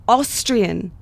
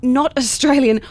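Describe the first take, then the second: First: "Austrian" said slowly in two clear syllables, AUS-trian; patient teacherly "Austrian"; careful correction. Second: "Australian" said clearly with every syllable; pointed, corrective "Australian"; correcting a misheard word. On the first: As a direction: spell out "Austrian" as the correct word. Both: Shown as a demonstration.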